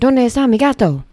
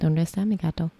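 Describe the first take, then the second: First: It is said with lively, Italian-sounding inflection. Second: It is said flatly, without expressive inflection.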